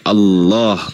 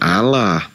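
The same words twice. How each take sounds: First: The double L sounds thick and heavy. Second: The double L sounds thin and light. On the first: The speaker calls it right. "dibaca tafkhim, dibaca tebal. Jadi Allah gitu" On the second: The speaker calls it wrong. "bacanya itu bukan Allah"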